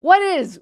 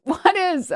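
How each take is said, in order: First: Said in the usual way. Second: Laughing. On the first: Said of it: "repeats it laughing". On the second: Real, not acted.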